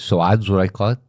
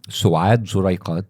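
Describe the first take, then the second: First: The name is said at normal speed. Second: The name is said slowly and carefully.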